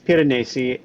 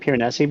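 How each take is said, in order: First: The name is pronounced with Italian sounds. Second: The name is pronounced with English sounds. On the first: "It is an Italian name. It is Piranesi" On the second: "more anglicized translation of it"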